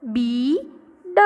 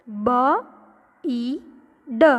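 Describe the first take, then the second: First: બ and ઈ joined as બી, then ડ; blended reading. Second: બ, ઈ, ડ as three separate sounds; wrong unblended reading. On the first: Teacher showing children how to read the spelling, sounds blended. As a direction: say a long joined બી, short pause, then ડ. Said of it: "તો આખો spelling વાંચો". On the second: Teacher showing children a wrong reading, three isolated letter sounds. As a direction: say બ, then ઈ, then ડ, pausing between each. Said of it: "એને કેવી રીતે વાંચશું". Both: Shown as a demonstration.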